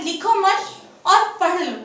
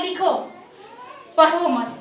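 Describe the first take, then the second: First: लिखो मत as one group, then और पढ़ लो; pause after मत. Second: लिखो alone, long break, then पढ़ो मत falling; pause after लिखो. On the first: Teacher giving the second sentence's meaning, pause after मत. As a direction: break after मत, before और पढ़ लो. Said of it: "दूसरे वाक्य में ये बोल रहा है". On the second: Teacher giving the first sentence's meaning, pause after लिखो. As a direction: stop after लिखो, keep पढ़ो मत together. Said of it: "पहले में ये बोल रहा है". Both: Shown as a demonstration.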